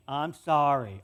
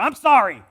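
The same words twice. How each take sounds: First: Lower, grudging, fake-sincere sorry; mock forced sincerity; sulky kid's second sorry. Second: Loud, high, bratty shout of sorry; mock kid's shouted apology; sulky kid yelling sorry. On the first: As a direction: put on a sincere tone you don't mean. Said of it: "Say it like you mean it". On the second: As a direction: yell it like a resentful child forced to apologize. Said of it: "all of us had to do that as kids".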